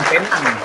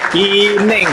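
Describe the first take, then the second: First: The name is pronounced like 'Penang'. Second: The name is pronounced like 'Pineng'. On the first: The speaker calls it wrong. "bukan Penang" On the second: The speaker calls it right. "Pineng, bukan Penang, Pineng"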